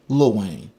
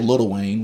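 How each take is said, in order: First: The first word is shortened to lil. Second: The first word is said in full as little. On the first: "we say Lil Wayne. ... we give it like a, a cutoff" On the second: "we don't say Little Wayne"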